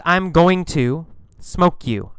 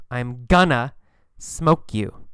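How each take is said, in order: First: Said in the usual way. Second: Gonna said as one quick word, kuh-nuh. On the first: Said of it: "We don't say going to". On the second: Shown as a demonstration. Teacher shows how natives say gonna. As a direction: run "gonna" together, then whisper "smoke you". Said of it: "we say gonna".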